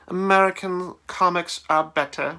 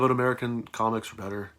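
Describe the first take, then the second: First: It is said in a put-on British accent. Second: It is said in his normal American accent.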